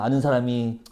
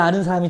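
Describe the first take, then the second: First: It is said in a sad, awkward tone. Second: It is said in a glad, relieved tone. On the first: Only the dead are left to know him. The speaker calls it right. "어떻게 가냐? 우우 아 ... 이런 얘기예요" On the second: Finding a known person there is a relief. The speaker calls it wrong. "아우 다행이다 ... 이렇게 읽으면 좀 이상해집니다"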